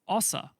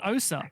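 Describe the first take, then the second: First: The name is said the Croatian way. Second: The name is said the usual anglicized way. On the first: The speaker calls it right. "Apparently it's O S A" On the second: The speaker calls it wrong. "Apparently it's not O S A"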